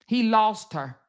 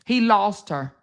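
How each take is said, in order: Both takes have the same delivery.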